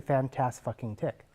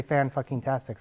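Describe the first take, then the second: First: "fantas-fucking-tick" with the swear put too late in the word; wrong infix placement. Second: "fan-fucking-tastic" with the swear right after fan; right infix placement. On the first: Lecturer showing the class the wrong infix, with the swear put too late. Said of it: "That, that's not how you say it". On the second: Lecturer showing the class the correct infix, with the swear right after fan. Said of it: "so that's how you say it". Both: Shown as a demonstration.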